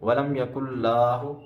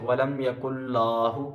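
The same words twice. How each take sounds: The two takes are said the same way.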